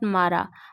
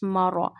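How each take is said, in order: First: The r is light, with a thin, bright vowel. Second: The r is heavy, with a thick, deep vowel. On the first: The speaker calls it wrong. "It's not mara" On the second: The speaker calls it right. "Read raw with a thick voice because there is a fatha on raw"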